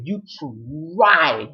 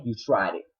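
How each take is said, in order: First: TRIED stretched very long, higher and loud; slow, raised emphasis on "tried"; drawn-out TRIED. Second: Said in the usual way. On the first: Real, not acted. Calling out Tyler Perry, drawn-out take.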